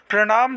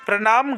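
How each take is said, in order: First: प्रणाम with a curled-tongue ṇ; correct retroflex n. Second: प्रणाम with a plain n; wrong dental n. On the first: Teacher giving students the right form, retroflex n. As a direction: curl the tongue back in प्रणाम. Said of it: "सही होगा". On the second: Teacher showing students the mistake, plain n. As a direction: say प्रणाम as "pra-naam", tongue forward. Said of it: "गलत होगा". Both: Shown as a demonstration.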